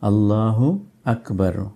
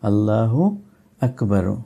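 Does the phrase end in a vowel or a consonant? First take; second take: vowel; vowel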